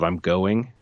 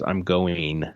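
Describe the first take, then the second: First: The word ends with a plain 'ing' sound. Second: The word ends with an 'een' sound. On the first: "instead of" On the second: "She pronounces it E E N"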